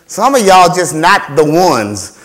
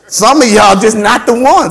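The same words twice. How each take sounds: First: Said in the usual way. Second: Louder, higher, slow "Some of y'all just not the ones"; emphatic repeat. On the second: Real, not acted. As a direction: drive home "not the ones" in a raised voice. Repeats it forcefully for effect.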